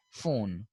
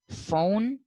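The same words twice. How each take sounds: First: PHONE with a rounded American O; American pronunciation. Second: PHONE with the British gliding vowel; British pronunciation. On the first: Teacher showing how these Americans say phone, American pronunciation. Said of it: "these people say phone". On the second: Teacher showing how British people say phone, British pronunciation. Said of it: "the British people say phone". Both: Shown as a demonstration.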